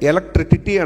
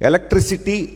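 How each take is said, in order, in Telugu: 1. ముగింపును t శబ్దంతో పలుకుతారు. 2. ముగింపును s శబ్దంతో పలుకుతారు. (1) "ఆ చివరిలో సిటీ అని వస్తుంటే టిటీ అంటున్నాడు" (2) "ఎలక్ట్రిసిటీ అనమంటే"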